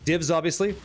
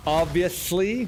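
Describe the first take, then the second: First: Said in the usual way. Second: OBVIOUSLY stretched slow with a rising end; drawn-out echo. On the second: Real, not acted. Streamer repeating "Obviously" to himself about loot, drawn out. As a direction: linger on "Obviously", lifting at the end.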